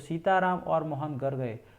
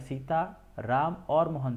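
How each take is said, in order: First: Sita and Ram run together without a pause. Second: There is a pause after Sita.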